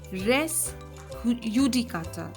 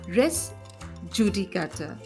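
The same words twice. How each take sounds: First: Judicata begins with a Y sound. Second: Judicata begins with an English J sound.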